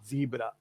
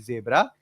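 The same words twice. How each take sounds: First: The first vowel is long, like zee. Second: The first vowel is short, like zeh. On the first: This is the American way of saying it. "Americans say Z, so they call it zebra" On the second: This is the British way of saying it. "we say Z, we call it zebra"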